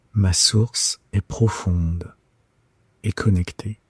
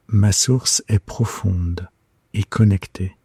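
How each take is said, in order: Both takes have the same delivery.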